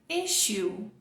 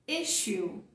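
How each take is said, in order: No difference in how they are said.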